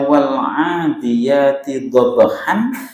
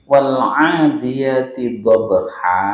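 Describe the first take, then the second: First: The last word ends with an n sound. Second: The last word ends with a long vowel. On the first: This is the basic form before stopping. "cara membaca wal 'adiyati dhabhan" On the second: The reader stops at this word. "kalau waqaf atau dibaca berhenti jadi wal 'adiyati dhabha"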